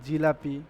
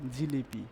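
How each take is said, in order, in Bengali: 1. দ্বিতীয় অক্ষরে স্বরধ্বনি 'a'। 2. দ্বিতীয় অক্ষরে স্বরধ্বনি 'i'। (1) "দেখেন জিলাপি" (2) "জিলাপি শব্দটা কি হয়ে যাবে? জিলিপি"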